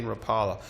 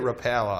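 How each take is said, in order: First: "Rapala" said ruh-PAH-luh, open AH; preferred pronunciation. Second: "Rapala" said ruh-PAL-uh, flat A as in pal; other people's pronunciation. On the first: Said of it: "I like rap-, saying Rapala". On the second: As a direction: stress a short A mid-"Rapala": ruh-PAL-uh. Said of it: "some people say it Rapala". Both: Shown as a demonstration.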